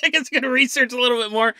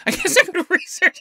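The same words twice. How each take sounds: First: Said in the usual way. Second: Saying it through a laugh, much higher; amused, laughing it off. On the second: Real, not acted.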